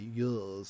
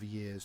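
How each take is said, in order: First: It is said in a BBC-style accent. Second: It is said in a plain everyday accent. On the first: "she say years" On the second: "instead of years"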